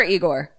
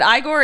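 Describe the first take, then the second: First: "Igor" said as EE-gor; EE-gor pronunciation. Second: "Igor" said as EYE-gor; EYE-gor pronunciation. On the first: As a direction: open "Igor" with a long "ee". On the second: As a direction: open "Igor" with the word "eye". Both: Shown as a demonstration. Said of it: "Is it Igor or Igor?".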